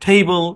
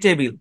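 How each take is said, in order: First: It is said in a closer English-style way. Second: It is said in a simple Bengali-style way. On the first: "টেবল বলার দরকার নেই" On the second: "basic উচ্চারণটা ঠিক রাখেন"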